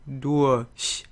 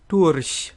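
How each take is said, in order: First: The R becomes a soft vowel sound. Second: The R is a quick tap. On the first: "Or if we schwa it" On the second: "we can either flip this R"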